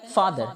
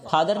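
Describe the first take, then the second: First: फादर opening on an airy true f; correct f sound. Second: फादर with aspirated p, as "phaadar"; wrong pronunciation. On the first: Teacher modelling the word for pita, correct f sound. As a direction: say फादर with lips apart for f. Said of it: "होठों से हवा इसमें बाहर जाएगी". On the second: Teacher showing what not to say for pita, wrong pronunciation. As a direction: close the lips and pop the start of फादर. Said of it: "फादर नहीं कहते हैं". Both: Shown as a demonstration.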